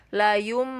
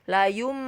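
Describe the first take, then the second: The two takes are said the same way.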